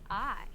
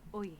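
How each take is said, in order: First: The vowel is said the standard English way. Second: The vowel is said the Irish way, like oi.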